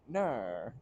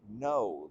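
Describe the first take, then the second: First: It is said in an Australian accent. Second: It is said in the speaker's plain accent.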